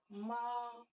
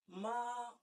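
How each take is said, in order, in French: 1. Le ton reste haut et plat. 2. Le ton reste haut et plat.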